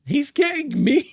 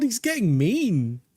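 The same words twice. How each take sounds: First: Much higher and louder, playfully scandalised; mock shocked squeal. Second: Said in the usual way. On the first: Real, not acted. Streamer squealing at Ghosty's teasing, playful mock shock. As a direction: squeal it in fake outrage.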